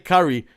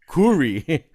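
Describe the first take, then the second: First: The name sounds like the food word curry. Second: The name does not sound like curry. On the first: The speaker calls it wrong. "Don't say curry" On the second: The speaker calls it right.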